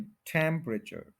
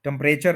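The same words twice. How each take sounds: First: temperature slowly as "TEM-pruh-chur"; stress on TEM. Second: temperature as "tum-PRAY-chur"; wrong stress. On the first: Teacher giving the correction, slow TEM-pruh-chur for temperature. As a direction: draw out TEM in temperature, reduce the rest. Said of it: "first के ऊपर stress है". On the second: Teacher showing what not to say, tum-PRAY-chur for temperature. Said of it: "temperature नहीं". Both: Shown as a demonstration.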